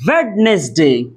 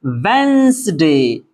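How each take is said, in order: First: वेडनेसडे with the first D fully sounded; childhood classroom mispronunciation. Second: वेंसडे slow, in two syllables without the first D; silent D. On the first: Tutor shows how schoolteachers taught it, mispronounced with the D. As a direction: say वेडनेसडे as spelled, D and all. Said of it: "इसको बचपन में teacher पढ़ाते हैं". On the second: Tutor gives pupils the correct reading, D dropped, drawn out. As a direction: draw out वेंसडे, N straight into S. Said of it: "डी को नहीं पढ़ेंगे". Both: Shown as a demonstration.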